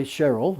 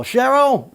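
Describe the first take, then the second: First: Said in the usual way. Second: High, loud shout of Cheryl; retold scream. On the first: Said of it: "his long-suffering secretary". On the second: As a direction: call Cheryl loudly to the office next door. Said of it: "he screams out to his long-suffering secretary".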